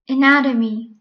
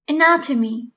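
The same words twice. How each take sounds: First: The middle t sounds like a soft d. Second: The middle t sounds like a clear t.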